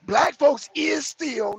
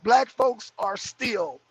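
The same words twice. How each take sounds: First: Slow, stressing "is"; wrong version. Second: Slow, clear "Black folks are still"; correct version. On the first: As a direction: drag out "Black folks is still" with weight on "is". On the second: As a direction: spell out "are" slowly and firmly. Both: Shown as a demonstration. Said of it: "no, it ain't is still".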